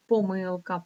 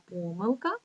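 First: Помилка stressed on МИЛ; stress on second syllable. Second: Помилка stressed on ПО; stress on first syllable. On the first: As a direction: lean on the middle syllable of помилка. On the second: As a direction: lean on the opening syllable of помилка. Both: Shown as a demonstration. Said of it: "це слово має два наголоси".

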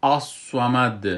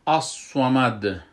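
First: الصمد slow and loud with a thick emphatic ص; الصمد recited slowly, sad emphatic; slow heavy sad. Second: الصمد with a full heavy ص; الصمد recited with emphatic sad. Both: Shown as a demonstration. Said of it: "صاد خوب بلند تلفظ".

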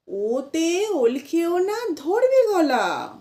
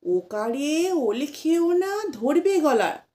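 First: ওতে said "ote", slow and higher; slow chant opening with a clear ওতে; correct pronunciation. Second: ওকারে said "okare", slowly; wrong pronunciation. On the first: Teacher corrects the rhyme for children, slow and high. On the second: Teacher imitates what we tell children, slow chant. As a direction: rhyme starting ওকারে, the habitual wrong way. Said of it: "বাচ্চাদেরকে আমরা বলে থাকি". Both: Shown as a demonstration.

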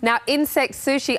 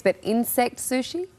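First: Said in the usual way. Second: Doubtful question, rising at the end; incredulous. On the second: Real, not acted. Host questions reporter about eating insect sushi, incredulous. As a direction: query it in disbelief, ending on a rise.

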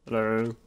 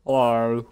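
First: Lighter second hello, same put-on voice; character voice. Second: Hammy greeting in a put-on game voice; character voice. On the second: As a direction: say hello as your game character. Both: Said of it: "that's my voi-, my character's voice".

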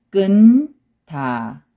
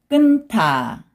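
First: 끊다 split as a held 끈, then 다; syllable by syllable. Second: 끊다 joined as 끈타, aspirated t; read together. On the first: Teacher breaking a word down for learners, syllable by syllable. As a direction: hold n in 끊다 before a separate 다. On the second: Teacher showing the linked sound to learners, read together. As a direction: run 끊다 together with an airy 타. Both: Shown as a demonstration. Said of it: "also 느 sound".

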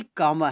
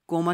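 First: कॉमा with an open "aw" vowel, as "kaw-ma"; corrected comma pronunciation. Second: कॉमा with a long "o", as "koh-ma"; mispronounced comma. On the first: Teacher gives students the right reading, कॉमा as "kaw-ma". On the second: Teacher warns against a common reading, कॉमा said as "koh-ma". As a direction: say कॉमा like the word "coma". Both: Shown as a demonstration. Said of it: "कॉमा नहीं पढ़ना".

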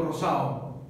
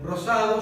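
First: Rosado said as rosao, the d dropped; dropped consonant. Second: Said in the usual way. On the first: Shown as a demonstration. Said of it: "ese rosado hace que". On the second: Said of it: "Por ejemplo, la palabra".

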